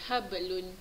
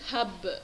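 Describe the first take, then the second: First: The b runs straight into the next sound. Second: The word stops on b with a clear echo. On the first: "sebutan lain kat sebelah dia" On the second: "Kalau kita berhenti hab, hab, uh, lagi jelas uh, dia punya qalqalah"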